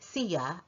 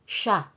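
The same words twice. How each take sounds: First: The word is said in full, two syllables. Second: The word is shortened to one syllable. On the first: "we sometimes pronounce the word siya as" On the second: "simply siya. That is perfectly fine"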